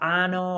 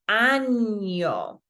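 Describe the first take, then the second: First: The middle consonant is a plain n sound. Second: The middle consonant is a palatal ny sound. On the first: It means anus. The speaker calls it wrong. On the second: It means year. The speaker calls it right.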